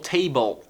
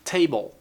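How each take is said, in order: No difference in how they are said.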